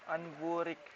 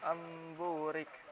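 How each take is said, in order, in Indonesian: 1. Bunyi sengau sebelum b adalah bunyi n. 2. Bunyi sengau sebelum b adalah bunyi m. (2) "tapi amburik"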